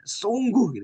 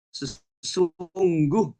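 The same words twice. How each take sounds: First: Sungguh said with weight, falling; emphasis. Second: Slow, drawn out Sesungguh; emphasis. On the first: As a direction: lean on Sungguh. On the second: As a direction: stretch Sesungguh out to stress it. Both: Shown as a demonstration. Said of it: "sungguh itu sebuah penekanan".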